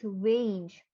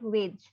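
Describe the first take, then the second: First: The vowel is long and gliding. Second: The vowel is short and clipped. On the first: The speaker calls it right. "No, it's wage" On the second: The speaker calls it wrong. "It's not wage"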